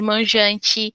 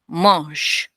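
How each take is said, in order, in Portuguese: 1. A terminação escrita da palavra é pronunciada. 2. A terminação escrita da palavra é muda. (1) "em vez de manjante" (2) "não, mange"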